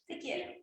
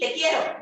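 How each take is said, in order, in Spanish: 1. Se dice de forma poco sincera, fingida. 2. Se dice de forma enojada, irritada. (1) "Ahora te quiero fingido" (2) "Ahora un te quiero enojado"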